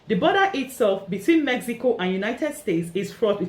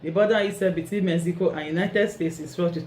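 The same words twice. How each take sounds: First: It is read clearly with lively, varied pitch. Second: It is read in a flat, monotone voice. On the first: The speaker calls it right. "See how I read it very clearly" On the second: The speaker calls it wrong. "if you read in a monotone, it's going to be very boring. Just imagine reading like this"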